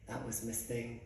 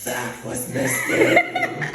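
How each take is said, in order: First: Low, hushed retold answer; quiet reveal. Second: Loud, slow, drawn-out acted shock; outraged disbelief. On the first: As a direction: say it small and under, very softly. Quietly telling mom who that was. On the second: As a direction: echo it back as an appalled mom, stretching it out. Mom's outraged echo of the news.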